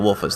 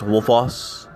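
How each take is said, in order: First: The last syllable has an 'u' vowel, like 'us'. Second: The last syllable has an 'o' vowel, like 'oss'. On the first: It is a personal habit. "I pronounce it Wolfus. almost like if there's a U S at the end" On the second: It follows the spelling. "if you're going to pronounce it the way it's written"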